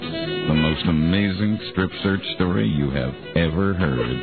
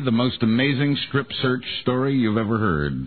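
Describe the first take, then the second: First: It is said in a put-on seductive voice. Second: It is said in an ordinary speaking voice. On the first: "He's going to do it in uh, Buzz's sexy style"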